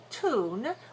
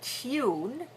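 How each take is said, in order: First: It is said in an American way. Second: It is said in a British way. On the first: "which is more American" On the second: "which is more British"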